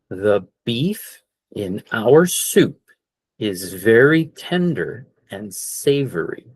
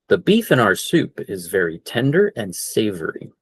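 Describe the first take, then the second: First: The sentence is spoken slowly and carefully. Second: The sentence is spoken at full natural speed.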